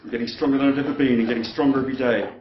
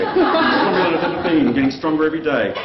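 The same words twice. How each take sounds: First: Said in the usual way. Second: Louder self-pep chant; loud affirmation. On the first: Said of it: "Let's try that again". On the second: Acted. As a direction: pump yourself up, louder. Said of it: "I can do this".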